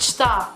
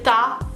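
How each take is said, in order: First: Both syllables are pronounced in full. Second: The first syllable is dropped, leaving one syllable. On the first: The complete standard form. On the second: A casual form used to speak faster.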